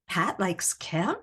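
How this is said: It is said as a question. The speaker is asking something.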